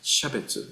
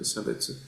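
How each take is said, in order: First: The word begins with an 'sh' sound. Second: The word begins with an 's' sound. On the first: It refers to the Buddhist sense of distinction. "when we are talking about the Buddhist terminology, we pronounce as shabetsu" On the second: It refers to social discrimination in everyday language. "instead of sabetsu"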